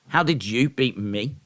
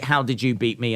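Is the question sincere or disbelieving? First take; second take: disbelieving; sincere. First: It is asked in a doubting, disbelieving tone. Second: It is asked as a sincere, curious question.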